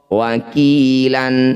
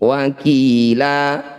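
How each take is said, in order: First: The word ends with a final n sound. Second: The word ends on a long vowel, no n. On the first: The reading continues without stopping. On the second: The reading stops on this word.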